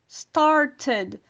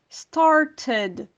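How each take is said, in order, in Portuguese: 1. O T do meio é um som de t claro. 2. O T do meio é um som de t claro.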